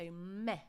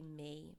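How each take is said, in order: First: The vowel is a short open 'eh' sound. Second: The vowel is a long English 'ee' sound. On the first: The speaker calls it right. "we want to pronounce it as if there was an H at the end" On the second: The speaker calls it wrong. "They say me, because of course we have the word me in English"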